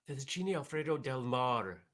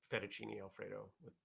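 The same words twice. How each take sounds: First: Fettuccine Alfredo del Mar in a hammed-up Italian accent, a bit louder; bad Italian accent. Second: Said in the usual way. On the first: Host naming his dinner in a playful, bad Italian accent. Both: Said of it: "That's not a good Italian accent".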